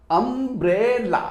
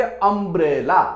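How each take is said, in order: First: अम्ब्रेला slowly split into three beats, um-bre-la; syllable by syllable. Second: Said in the usual way. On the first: Shown as a demonstration. Teacher showing children three syllables, अम्ब्रेला said slowly in three parts. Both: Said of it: "तीन बार हम pronounce करते हैं".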